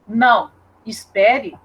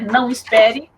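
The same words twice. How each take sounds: First: There is a pause after não. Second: There is no pause after não.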